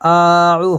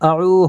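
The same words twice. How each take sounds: First: The opening vowel is drawn out long. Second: The opening vowel is kept short. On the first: The speaker calls it wrong. "আউ হবে না" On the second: The speaker calls it right. "এটাতে টান হবে না"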